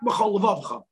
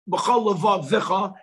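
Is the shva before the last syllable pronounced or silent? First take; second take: silent; pronounced. First: The shva is silent with no extra vowel. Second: The shva is pronounced as an extra vowel. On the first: The speaker calls it wrong. "and not" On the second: The speaker calls it right. "properly is to know"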